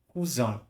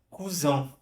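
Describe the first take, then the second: First: It is said with a French pronunciation. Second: The same.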